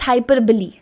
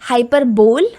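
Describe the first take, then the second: First: The word ends in two syllables, 'buh-lee'. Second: The word ends in a single 'bole' syllable. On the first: The speaker calls it right. "It's हाइपरबली" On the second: The speaker calls it wrong. "This is not pronounced as हाइपरबोल"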